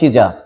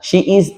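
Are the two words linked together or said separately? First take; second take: linked; separate. First: The two words run together as one. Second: The two words are said separately. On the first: The speaker calls it right. "আপনি বলবেন শিজা" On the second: The speaker calls it wrong. "শি ইজ এ নয়"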